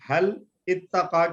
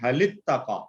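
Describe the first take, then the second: First: A glottal stop separates the two words. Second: The words run together with no glottal stop. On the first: The speaker calls it wrong. "हल इत्तका की बजाय" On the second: The speaker calls it right. "लाम के नीचे जेर लगा दिया, और इत्तका वाले हमजा के हमने साइलेंट कर दिया"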